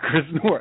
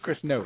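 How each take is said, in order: First: The surname is said with an R sound. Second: The surname is said without an R sound. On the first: The speaker calls it wrong. "It's not Chris North" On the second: The speaker calls it right. "There's no R"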